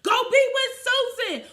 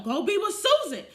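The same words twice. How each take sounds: First: Much higher and louder brush-off; shouted send-off to Susan; mock sassy shout. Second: Higher sassy brush-off; sassy retold brush-off; mock dismissive yell. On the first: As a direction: crank the sass up on the repeat. Retold dismissing him, repeated. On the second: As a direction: wave him off to Susan.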